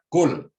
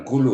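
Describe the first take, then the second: First: Kul said as one short syllable ending on l, louder and higher; correct Kul. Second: Kulu said with a final u, the wrong form. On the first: Preacher correcting the congregation, crisp and emphatic. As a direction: snap out a crisp Kul with no vowel after. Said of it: "Kul, bukan kulu ya". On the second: Preacher showing the congregation a wrong reading. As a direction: say kulu, adding an extra vowel. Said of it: "bukan kulu ya". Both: Shown as a demonstration.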